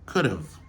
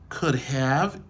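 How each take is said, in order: First: The have is shortened into a contraction. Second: Both words are said in full, unreduced. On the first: "yo utilisé la forme contractée" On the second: "Au lieu yo dit could have"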